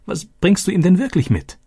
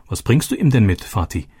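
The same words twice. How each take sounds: First: Much higher, pressing question; eager insisting. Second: Said in the usual way. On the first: Acted. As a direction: push him for the real answer. Daughter insists after joke.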